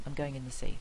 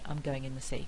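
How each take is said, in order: The two takes are said the same way.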